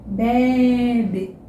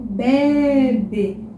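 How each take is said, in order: First: The word is said with very careful articulation. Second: The same.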